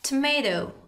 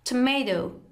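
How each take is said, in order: First: It is said with an American accent. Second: It is said with an American accent.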